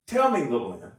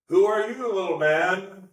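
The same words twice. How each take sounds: First: A jovial jab at a friend; playful teasing. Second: Mock him as a tiny man; scornful God. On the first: Voicing God teasing his friend Job, playful. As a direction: rib him gently. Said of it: "There's a playfulness to this". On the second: Voicing God scornfully to show a harsh reading, sneering. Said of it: "it can feel like". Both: Shown as a demonstration.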